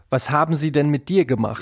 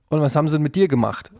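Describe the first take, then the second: First: Every word is pronounced fully and carefully. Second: Words are reduced and run together casually. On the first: This sounds like stiff, trained speech. The speaker calls it wrong. "Und nicht" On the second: This is how people naturally talk in everyday speech. The speaker calls it right. "Also ich sag ja dann auch"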